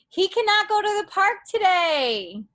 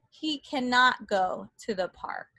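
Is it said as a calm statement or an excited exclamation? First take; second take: excited exclamation; calm statement. First: It is said as an excited exclamation. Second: It is said as a calm, flat statement.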